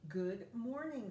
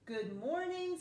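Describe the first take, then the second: First: It is said plainly, without extra energy. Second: It is said with lively, excited energy.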